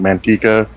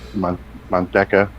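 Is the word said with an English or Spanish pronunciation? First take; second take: English; Spanish. First: The word is said with English pronunciation. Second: The word is said with Spanish pronunciation. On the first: This is how the town's locals say it. "they pronounce it Manteca, like the name of the town" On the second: This is the original word meaning lard. "the Spanish name"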